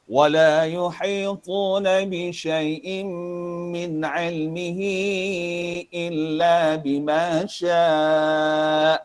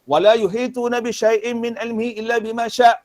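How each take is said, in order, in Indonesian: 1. Vokal terakhir ditahan sekitar dua ketukan. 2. Vokal terakhir dipendekkan tanpa dipanjangkan. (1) "pastikan sekurang-kurang wakafnya adalah dua"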